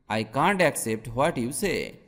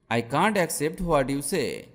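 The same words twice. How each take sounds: The two takes are said the same way.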